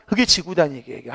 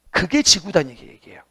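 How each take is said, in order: First: Quick recap. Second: Said in the usual way. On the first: Shown as a demonstration. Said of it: "시작". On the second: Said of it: "일부에 만드는 도시관리 계획".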